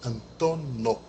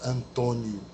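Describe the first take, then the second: First: The final vowel is a clear 'o' sound. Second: The final vowel is reduced to a 'u' sound. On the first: The speaker calls it right. "a palavra Antônio seria Antono" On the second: The speaker calls it wrong. "nunca Antônio"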